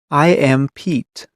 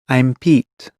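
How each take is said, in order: First: It is said slowly and fully. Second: It is said fast and reduced.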